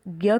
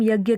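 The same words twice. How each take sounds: First: ज्ञ said as d-n-y run together; Marathi dnya sound. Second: Said in the usual way. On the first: Shown as a demonstration. Teacher to learners, ज्ञ as Marathi dnya. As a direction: blend ज्ञ from द, न and य. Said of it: "ऐसे होता है". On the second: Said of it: "इसे हिंदी में हम यज्ञ कहते हैं".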